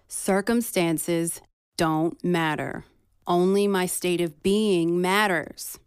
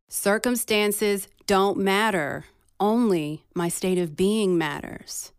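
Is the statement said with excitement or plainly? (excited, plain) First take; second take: plain; excited. First: It is said plainly, without added excitement. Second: It is said with calm but clear excitement.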